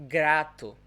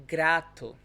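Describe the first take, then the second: No difference in how they are said.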